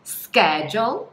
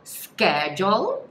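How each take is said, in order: First: The word begins with a 'sk' sound. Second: The word begins with a 'sk' sound.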